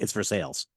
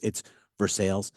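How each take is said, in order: First: The name is said the local Kentucky way. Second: The name is said the French way.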